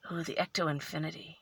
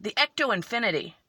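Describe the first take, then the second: First: Soft, low, quick aside; hushed, lower murmur of discovery; quiet musing. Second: Said in the usual way. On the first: Real, not acted. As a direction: try the name out softly to yourself. Reading the name to herself.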